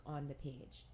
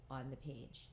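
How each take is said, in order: Both takes have the same delivery.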